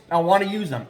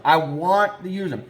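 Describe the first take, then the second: First: Said in the usual way. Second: Slow down, leaning hard on "want"; stress on WANT. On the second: Real, not acted. Trapper insisting he'll use suggested lures, stress on "want". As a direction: draw out "want" in full, not "wanna". Repeats it for emphasis.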